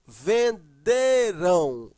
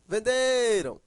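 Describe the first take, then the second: First: "Venderão" very slow, split, with DE loud and long; ven-DEEE-rão, syllable by syllable; stress on DE. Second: "venderam" joined up, DE held and falling; ven-DE-ram as one smooth word; stress on DE. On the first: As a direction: break up "Venderão" and punch the middle DE. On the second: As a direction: say "venderam" in one piece, leaning on DE. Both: Shown as a demonstration. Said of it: "a sílaba forte é aqui".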